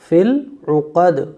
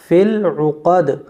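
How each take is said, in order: The two takes are said the same way.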